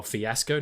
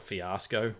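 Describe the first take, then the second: First: "Fiasco" with a short flat A, as in "ass"; preferred pronunciation. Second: "Fiasco" with a long open AH; rejected pronunciation. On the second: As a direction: say "Fiasco" as fee-AH-sco, softly. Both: Shown as a demonstration. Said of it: "not Fiasco".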